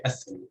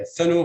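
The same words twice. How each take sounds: First: Athanu, first syllable stressed. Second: ATHAnu, second syllable stressed. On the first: Lecturer showing the optional variant, athanu stressed on first syllable. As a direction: hit the opening A of athanu. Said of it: "stress the first syllable". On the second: Lecturer showing the usual variant, athanu stressed on THA. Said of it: "optionally, stress the first syllable". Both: Shown as a demonstration.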